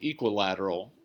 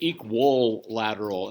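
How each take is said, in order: First: It starts like 'equip', with the syllables run together. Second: It starts like the word 'equal', then 'lateral'. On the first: This is the more proper way to say it. "it's actually equilateral, which is slightly different" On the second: This is the common way people say it. "People say equal lateral"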